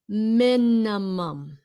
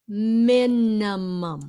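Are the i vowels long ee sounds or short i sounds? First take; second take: short i; short i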